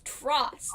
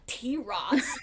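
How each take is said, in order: First: It is spoken as one single syllable. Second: The letter T is spoken separately before Ross. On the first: The speaker calls it right. "It's Tross" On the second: The speaker calls it wrong. "It's not a dinosaur. It's not T Ross"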